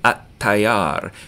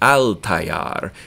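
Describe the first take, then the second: First: The L is absorbed into the following T. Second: The L is pronounced separately before the T. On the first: "It takes less energy to say atayar" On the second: "than it does to say al tayar"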